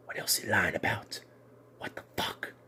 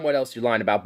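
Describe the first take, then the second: First: Hushed unvoiced disbelief; breathless mock-whispered accusation. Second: Said in the usual way. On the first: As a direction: whisper it like a stunned secret. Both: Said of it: "It's like".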